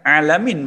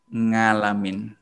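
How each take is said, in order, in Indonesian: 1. Kata ini diawali dengan konsonan tenggorokan. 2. Kata ini diawali dengan bunyi ng. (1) "alamin menggunakan huruf ain" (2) "a menjadi nga"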